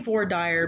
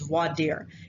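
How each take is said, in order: First: It is pronounced the regional Texas way. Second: It is pronounced the standard way. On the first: The speaker calls it wrong. "I say voir dire because I'm in Texas" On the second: The speaker calls it right. "The correct pronunciation is voir dire"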